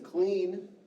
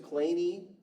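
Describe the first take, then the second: First: The name is said as one syllable. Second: The name is said as two syllables. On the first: This is how his relatives said the name. The speaker calls it wrong. "He pronounced his name as Clean. No" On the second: This is how the man himself said his name. The speaker calls it right. "he pronounced his name as Claney"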